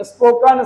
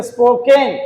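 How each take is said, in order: First: Spoken said slowly with a clean "ən" ending; correct spoken. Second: Spoken said slowly with a nasal "ɪŋ" ending; common wrong spoken. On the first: Teacher shows students how spoken should sound, slow and clear. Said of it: "we have to speak spoken". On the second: Teacher imitates the students' wrong spoken, slow nasal ending. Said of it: "lot of people speak spoken". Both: Shown as a demonstration.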